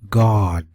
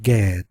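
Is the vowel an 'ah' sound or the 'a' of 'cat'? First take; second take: ah; cat a. First: The vowel is an open 'ah' or 'aw' sound. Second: The vowel sounds like the 'a' in 'cat'. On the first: The speaker calls it right. "it's a R sound, a A W sound for this A" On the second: The speaker calls it wrong. "not Gad. I know some of y'all want to say Gad"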